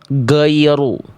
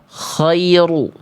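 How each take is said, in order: First: The first sound is a stopped, hard g. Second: The first sound is a rasping kh. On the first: "suaranya tidak mengalir, jadi kayak huruf G" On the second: "berubah jadi huruf kho"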